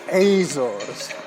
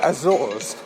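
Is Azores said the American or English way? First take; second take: American; English. First: It is said with an American pronunciation. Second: It is said with an English pronunciation. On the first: "the Americans say Azores" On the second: "the English say Azores"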